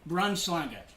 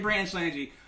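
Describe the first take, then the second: First: It is pronounced with Norwegian vowels and sounds. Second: It is pronounced with English-sounding vowels and sounds. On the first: The speaker calls it right. "it's actually pronounced Braunschlange" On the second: The speaker calls it wrong. "no idea what that was"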